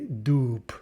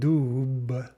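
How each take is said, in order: First: The word ends with a voiceless P sound. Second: The word ends with a voiced B sound. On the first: "but we say doop" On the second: "we write doob"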